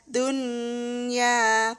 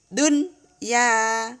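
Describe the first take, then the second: First: The n sound merges into the following y. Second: The n sound is pronounced clearly before y. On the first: The speaker calls it wrong. "tidak boleh dibaca dun ya" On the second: The speaker calls it right. "Nun dibaca jelas"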